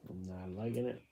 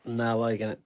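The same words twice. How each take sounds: First: Much softer, under the breath; muttering to self. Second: Said in the usual way. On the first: Real, not acted. Painter unhappy with the painting, muttering to self. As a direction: repeat it quietly to yourself.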